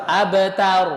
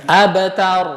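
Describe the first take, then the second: The two takes are said the same way.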